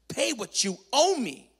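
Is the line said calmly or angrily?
calmly. It is read in a calm, plain voice.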